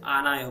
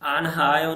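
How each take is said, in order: First: आनायो with no h, a-na-yo run together; correct pronunciation. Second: आनहायो with a clear h sound in the middle; आनहायो said loud with an audible h; wrong pronunciation. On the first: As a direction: drop the h and blend आनायो. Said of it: "इसे आनायो पढ़ना है". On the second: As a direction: stress the h in आनहायो as the mistake. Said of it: "आनहायो नहीं पढ़ना है". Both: Shown as a demonstration.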